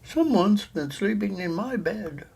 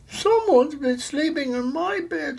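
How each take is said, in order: First: The voice sounds middle-sized. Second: The voice sounds wee and little. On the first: "in her middle-sized voice" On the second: "in her wee little voice"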